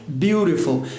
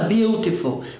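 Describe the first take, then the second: First: The middle T is a quick, R-like tap. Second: The middle T is a clear, full T sound. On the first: "No inglês americano, que é o mais rápido, mais acelerado, eles falam" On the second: "Já no inglês britânico, eles vão falar"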